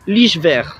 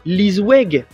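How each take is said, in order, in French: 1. Le nom se lit avec les sons des lettres néerlandaises. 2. Le nom se lit avec les sons des lettres françaises. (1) "Aux Pays-Bas, ça se prononce Lichver" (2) "Qu'est-ce que vous lisez là? Lisweg, on est d'accord"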